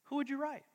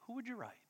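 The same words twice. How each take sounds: First: Said in the usual way. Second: Much softer, almost to oneself; softer repeat. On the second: Real, not acted. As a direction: let the question sink in quietly. Repeated question, drops away softly.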